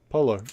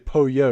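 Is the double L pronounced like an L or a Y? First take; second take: L; Y. First: The double L sounds like an English L. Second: The double L sounds like a Y. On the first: "why don't we just say it like it's an English word" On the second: "you're supposed to make the double L sound like a like a, a Y"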